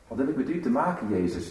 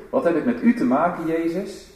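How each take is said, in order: First: A hurried, dismissive aside; brushed-off retort. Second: Raised, fast, loud challenge rising on "u"; a cry of defiance rising at the end; loud call. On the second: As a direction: fling "Wat heb ik met u te maken" outward, higher and louder. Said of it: "die roep". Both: Shown as a demonstration.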